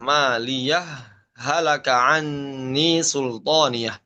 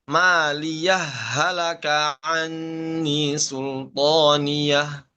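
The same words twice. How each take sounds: First: A brief pause separates 'maliyah' from 'halaka'. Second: The two h sounds merge without any pause. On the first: "dengan mengizharkan dan juga dengan saktah" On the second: "Dibaca dengan idgham"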